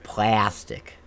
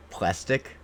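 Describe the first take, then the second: First: "plastic" very slow, with a drawn-out A sliding toward E; her flat A. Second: "plastic" said the Canadian way, ending on a rise. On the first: Shown as a demonstration. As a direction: stretch the A in "plastic" like "A E", slowly. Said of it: "the A that she says". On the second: Retold or imitated. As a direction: imitate how Canadians say "plastic", rising at the end. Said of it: "they say it like".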